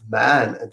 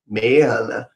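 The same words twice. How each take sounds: First: The vowel matches the vowel in 'have'. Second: The vowel shifts before the N sound. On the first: "American people usually don't say man, man, like have, man" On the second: "They say man"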